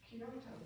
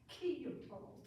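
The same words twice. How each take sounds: First: The stress is on the second syllable. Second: The stress is not on the second syllable. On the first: The speaker calls it wrong. "often the accent is on the second syllable" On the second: The speaker calls it right. "but it's really"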